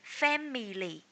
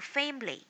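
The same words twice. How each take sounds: First: The word is said with three syllables. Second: The word is said with two syllables. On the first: The speaker calls it wrong. "If you are saying family" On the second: The speaker calls it right. "so change it into family"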